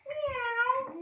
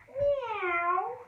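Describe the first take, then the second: First: High mock meow again; cat meow. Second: High mock meow; cat meow. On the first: Teacher leading children in cat pose, playfully high meow. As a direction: squeak it like a kitten. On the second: Kids' yoga teacher meowing as the cat, playfully high. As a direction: play the cat for the kids. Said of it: "we're gonna do the cat". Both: Shown as a demonstration.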